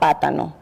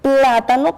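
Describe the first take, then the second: First: The L is dropped, so it begins with P. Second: The word begins with a clear PL cluster. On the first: The speaker calls it wrong. "él pronuncia pátano" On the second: The speaker calls it right. "se dice plátano"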